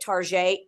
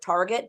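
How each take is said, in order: First: The word is said in a fancy, French-like way. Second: The word is said the plain, everyday English way. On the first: The speaker is being refined. The speaker calls it right. "you know, I live in Europe" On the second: The speaker is being uncouth. The speaker calls it wrong. "Uncouth people would pronounce it Target"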